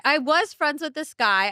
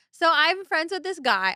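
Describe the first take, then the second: First: Slow, the word "was" leaned on to correct the tense; pointed past tense, "was friends" said slowly; stress on was. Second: Said in the usual way. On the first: Shown as a demonstration. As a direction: stretch out "was" to mark it's over.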